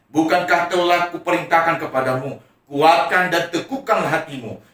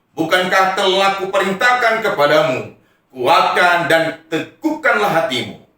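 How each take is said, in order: No difference in how they are said.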